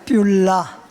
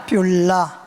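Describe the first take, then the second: Both takes have the same delivery.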